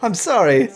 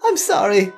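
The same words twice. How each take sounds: First: It is said in the speaker's normal voice. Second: It is said in a put-on female voice.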